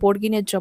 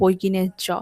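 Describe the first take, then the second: First: The first word begins with a 'bor' sound. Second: The first word begins with a 'boi' sound. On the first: This is the accepted name of the letter. The speaker calls it right. "ওটাকে বর্গিনের জ বলে" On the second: This is a childhood mispronunciation. The speaker calls it wrong. "কত বছর আমি বলতাম"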